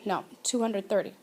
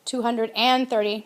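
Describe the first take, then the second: First: Softer, quicker "two hundred thirty" with no "and"; quiet correction. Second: "Two hundred and thirty" with the "and" stressed; "and" pushed out in "Two hundred and thirty"; wrong version with and. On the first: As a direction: tuck the correct form in softly and quickly. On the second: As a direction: show the error, hitting "and". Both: Shown as a demonstration.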